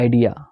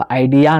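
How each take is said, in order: First: आइडिया with a short, weak final a; आइडिया with a clipped final uh; schwa at the end of idea. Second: आइडिया with a full, long final a; आइडिया ending on a full open a; full final a in idea. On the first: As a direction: say आइडिया ending in a quick schwa. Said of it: "बहुत ही shortly आ रहा है". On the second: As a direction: stress the last a of आइडिया as a full vowel. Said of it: "आइडिया नहीं". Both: Shown as a demonstration.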